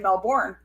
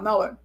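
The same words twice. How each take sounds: First: It is said with an American pronunciation. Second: It is said with an Australian pronunciation. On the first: "in the U S we say Melbourne" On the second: "Australia, they go Melbourne"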